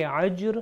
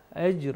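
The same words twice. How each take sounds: First: Ajr wrongly begun with a throaty ain. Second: Ajr begun on a light alif. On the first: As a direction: show the mistake, ain at the start of ajr. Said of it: "عین سے تلاوت کیا". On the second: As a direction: start ajr with alif, no ain. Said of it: "یہ الف سے ہے". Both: Shown as a demonstration.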